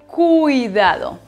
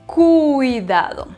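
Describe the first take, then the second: The two takes are said the same way.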